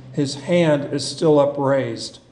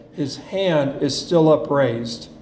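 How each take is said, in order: The two takes are said the same way.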